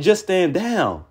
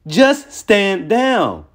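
First: Said in the usual way. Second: "Just stand down", each word stretched very slowly; emphatic repeat. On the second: Real, not acted. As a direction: draw out "Just stand down" word by word, higher pitched.

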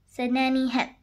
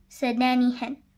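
No difference in how they are said.

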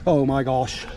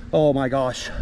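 The two takes are said the same way.

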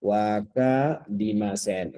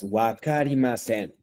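First: Wakarimasen drawn out slowly, syllable by syllable; slow model. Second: Wakarimasen said clearly as a model; teaching a word. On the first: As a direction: stretch Wakarimasen for the class to copy. (Wakarimasen despacio, sílaba por sílaba) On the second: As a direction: present Wakarimasen for repeating. (modelo claro de Wakarimasen) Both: Shown as a demonstration. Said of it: "les voy a dar una palabra importante".

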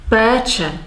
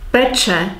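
First: Long, held first "é" in "Péče"; long vowel. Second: Short first "e" in "Peče"; short vowel. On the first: Teacher contrasting Czech word meanings, long "é" in "Péče". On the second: Teacher contrasting Czech word meanings, short "e" in "Peče". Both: Shown as a demonstration. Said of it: "long and short vowels".

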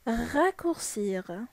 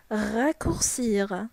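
First: Slow model word. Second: Slow repeat. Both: Shown as a demonstration. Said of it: "Ça veut dire يختصر".

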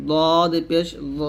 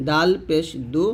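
First: Slow, thick দদ with a rounded ending; heavy D. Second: Light দাল and দু at the front teeth; thin dental D. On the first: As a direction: fill the mouth on দদ. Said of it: "এরকম মোটা করতে হবে". (মোটা করে দদ) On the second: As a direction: keep দু thin. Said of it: "তর মতো দাল". (পাতলা করে দাল, দু) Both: Shown as a demonstration.

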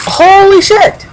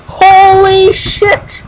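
First: High, loud shocked cry of "Holy shit!"; real astonishment at the screen; shocked exclamation. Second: High and slow, stretched "Holy shit!"; real awe, every syllable dragged out; drawn-out shock. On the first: Sudden shock in game. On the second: Repeated, drawn out. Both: Real, not acted.

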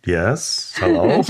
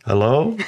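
First: Lightly voiced gnome, hello rising. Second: Lightly questioning, rising hello; mock-tentative greeting, rising at the end; hesitant hiker. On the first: Gnome answering the hiker, lightly acted puzzled voice. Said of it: "And the gnome said". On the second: Hiker unsure of what he sees, hesitant greeting. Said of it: "he's like".

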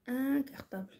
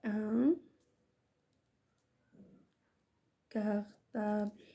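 First: Said in the usual way. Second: Slow, long pause after ان; word-by-word dictation. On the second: Shown as a demonstration. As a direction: say ان, wait, then stretch كارطابل slowly. (إملاء بطيء كلمة بكلمة)

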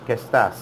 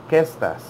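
First: "¿Qué estás?" said low with the stress on "estás"; wrong stress. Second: "Qué" stressed, "estás" dropping after it; stress on first syllable. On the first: Teacher warning "do not say" it so, stress on "estás". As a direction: lean on "estás" instead of "Qué". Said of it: "Do not say". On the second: Teacher asking for a stressed first syllable, stress on "Qué". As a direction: punch "Qué" at the start of "¿Qué estás?". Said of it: "Make a stress sound in the first syllable". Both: Shown as a demonstration.

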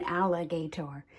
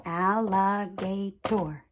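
First: Said in the usual way. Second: "Alligator" in four separated beats; tapped syllables. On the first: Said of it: "syllables are when I take a word". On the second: Shown as a demonstration. Teacher showing sound groups, "Alligator" syllable by syllable. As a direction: say "Alligator" as al, li, ga, tor. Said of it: "tap out the different sound groups".

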